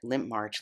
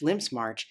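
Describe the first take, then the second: First: The name is said without an s after Limp. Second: The name is said with an s after Limp. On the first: The speaker calls it wrong. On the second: The speaker calls it right.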